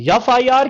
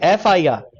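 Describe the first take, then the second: First: The first letter starts with a y sound. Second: The first letter starts with a plain vowel. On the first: The speaker calls it wrong. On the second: The speaker calls it right.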